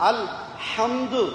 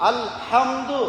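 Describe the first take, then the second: Both takes have the same delivery.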